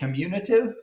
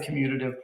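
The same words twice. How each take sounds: First: An extra 'n' sound is added mid-word. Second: No extra 'n' sound is added mid-word. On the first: The speaker calls it wrong. "Please do not say commutative, because there is no commutative property" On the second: The speaker calls it right. "That's the commutative property"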